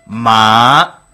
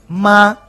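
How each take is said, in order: First: The syllable is said with the third tone. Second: The syllable is said with the neutral tone. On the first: Horse. "3er tono, es caballo" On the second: Mother. "tono neutro, es mamá"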